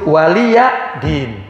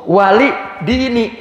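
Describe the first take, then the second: First: The last word ends without a final vowel. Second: The last word ends with a final 'ee' vowel. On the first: "Iya-nya nggak ada tuh, iya-nya dibuang" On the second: "wali dini mestinya"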